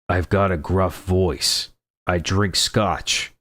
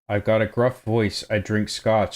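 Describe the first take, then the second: First: It is said in a deep, gruff put-on voice. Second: It is said in a normal speaking voice.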